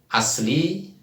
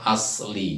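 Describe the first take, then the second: First: The s sound is plain. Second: The s sound is emphatic and heavy. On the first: "Kalau kita menggunakan set s ya" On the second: "kalau bahasa Arabnya asli"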